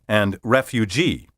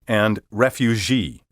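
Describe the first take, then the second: First: The g is a 'j' sound. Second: The g is a soft 'zh' sound. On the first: The speaker calls it right. "Be careful to say" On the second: The speaker calls it wrong. "Instead, they say"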